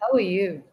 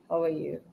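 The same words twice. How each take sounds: First: The words are said at normal, medium loudness. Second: The words are muttered, low and quiet. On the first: "That's medium, right?" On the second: "He was very angry, so he just muttered"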